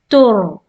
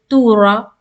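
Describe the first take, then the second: First: The r is stopped with no vowel after it. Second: A short a vowel follows the r. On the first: The speaker calls it right. "You need to pause" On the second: The speaker calls it wrong. "You do not say tura"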